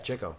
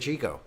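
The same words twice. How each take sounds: First: The first syllable sounds like 'chick'. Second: The first syllable does not sound like 'chick'. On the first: The name comes from being good with the chicks. The speaker calls it right. "Because he was good with the chicks" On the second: This is the common way people say the name. The speaker calls it wrong. "most people say Chico"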